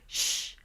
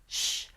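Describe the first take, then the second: First: The shh sounds tense and squeezed. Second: The shh sounds tense and squeezed.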